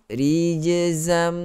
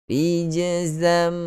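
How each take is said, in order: The two takes are said the same way.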